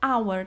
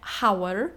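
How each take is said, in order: First: It starts directly with a vowel sound. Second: It starts with an audible h sound. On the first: The speaker calls it right. "tylko hour" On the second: The speaker calls it wrong. "bo nie czytamy hour"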